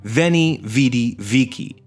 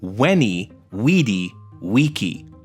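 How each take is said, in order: First: Each word begins with a V sound. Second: Each word begins with a W sound. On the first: This is how the phrase is usually said today. "which are often reproduced today" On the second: This is how the ancient speaker would have said it. "if we're pronouncing it the way he would have"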